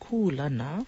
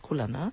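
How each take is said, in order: First: The first vowel is held long. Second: The first vowel is short. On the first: "spelled K-U with the kahako or the makron over that U"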